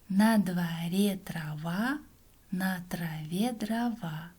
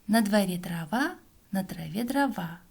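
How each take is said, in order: First: The phrase is spoken somewhat faster. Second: The phrase is spoken very fast. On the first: "А теперь немного быстрее" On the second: "А теперь еще быстрее"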